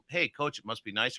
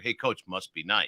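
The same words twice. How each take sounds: First: Softer take. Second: Slower and lower, "Hey, Coach, must be nice" dragged; slow low take. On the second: Coach contrasts a slow low must be nice. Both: Shown as a demonstration. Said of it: "You hear the difference in my voice?".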